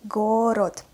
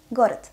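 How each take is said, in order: First: "Город" drawn out with both O's full; slow, articulated reading. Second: "Город" quickly, second O weakened toward A, final T; fast, natural reading. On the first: Teacher models for learners, "Город" slow with two clear O's. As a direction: spell out "Город" slowly as written. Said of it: "what is articulated pronunciation". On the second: Teacher reads as a native, "Город" fast with weak second vowel. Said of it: "I pronounced the letter O as A". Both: Shown as a demonstration.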